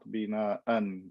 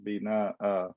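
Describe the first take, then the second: First: The word ends with an n sound. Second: The word ends with a long vowel. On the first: The speaker calls it wrong. "not bina an" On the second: The speaker calls it right.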